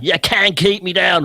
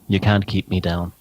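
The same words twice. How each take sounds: First: It is said in a Lord Flashheart voice. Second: It is said in his own normal voice.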